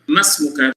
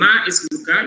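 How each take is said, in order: First: The i vowel is dropped, joining ma to smuka. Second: The i vowel is sounded after ma. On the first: The speaker calls it right. "because you dropped this E sound" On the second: The speaker calls it wrong. "Some people say Ma Ismuka. No, it is wrong"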